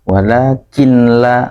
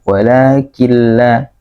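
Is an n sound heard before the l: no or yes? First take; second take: yes; no. First: An n sound is still heard before the l. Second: The n disappears, merging straight into the l. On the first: The speaker calls it wrong. "membacanya masih ada nunnya ya" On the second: The speaker calls it right. "nunnya tidak dianggap, langsung ke huruf lamnya"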